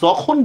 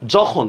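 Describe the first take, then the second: First: The word begins with a 'y' sound. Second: The word begins with a 'j' sound. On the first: The speaker calls it wrong. "আমরা কিন্তু যখন বলবো না" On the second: The speaker calls it right. "কি বলবো, যখন"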